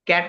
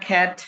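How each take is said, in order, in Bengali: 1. প্রথম ব্যঞ্জনে কোনো বাতাসের ফুঁ নেই। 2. প্রথম ব্যঞ্জনে জোরালো বাতাসের ফুঁ আছে। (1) "ক্যাট না খ্যাট?"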